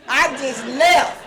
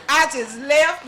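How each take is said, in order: First: Slow, louder, each word of "I just left" leaned on; emphatic and slow. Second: Said in the usual way. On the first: Shown as a demonstration. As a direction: land it slowly and heavily. Emphasizing rushing out.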